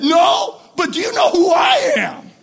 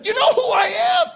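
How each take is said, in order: First: High, loud comeback falling on "I am"; one-upping retort. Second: High-pitched question, rising on "I am"; self-important challenge. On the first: Other movie guy answering back, emphatic one-upmanship. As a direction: top the other big shot emphatically. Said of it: "the other guy said". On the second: Old movie guy challenging another, self-important. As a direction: play a big shot from an old movie. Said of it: "where one guy said". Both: Acted.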